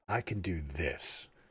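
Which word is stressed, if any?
this. The word "this" is stressed.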